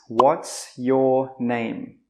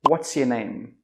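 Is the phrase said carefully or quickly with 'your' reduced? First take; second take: carefully; quickly. First: It is said carefully, with 'your' in full. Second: It is said quickly, with 'your' reduced.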